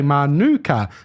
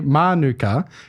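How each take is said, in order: First: The stress is on a later syllable. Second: The stress is on the first syllable. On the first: This follows how the honey's name is said. "mirroring the pronunciation of the Manuka honey" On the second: This is how most locals say the suburb name. "emphasizing the first syllable of the word"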